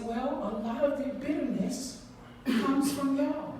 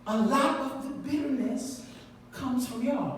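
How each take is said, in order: First: Y'all lifted at the end; stress on y'all. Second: Lot leaned on, y'all falling; stress on lot. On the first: Retold or imitated. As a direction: lean into y'all. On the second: Shown as a demonstration. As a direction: hit lot, let y'all drop.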